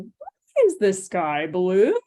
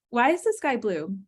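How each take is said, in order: First: The pitch swings very high and very low. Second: The pitch stays level and it is faster. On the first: It is asked to teach a child. "I'm really exaggerating pitch there, but I can go really high and really low" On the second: It is a real request for information. "The tone there is much more in the same pitch"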